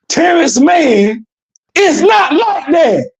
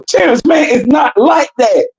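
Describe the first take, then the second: First: The sentence is spoken slowly and deliberately. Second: The sentence is spoken at a normal pace.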